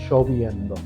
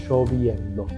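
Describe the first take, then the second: The two takes are said the same way.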